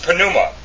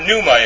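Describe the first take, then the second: First: The word starts with an audible P sound. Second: The word starts with an N sound, P silent. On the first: The speaker calls it right. "they pronounce it pneuma with the P" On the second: The speaker calls it wrong. "it's not pneuma in the Greek"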